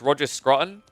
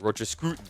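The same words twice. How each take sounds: First: The vowel in the name sounds plain. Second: The vowel in the name is a rounded 'oo'.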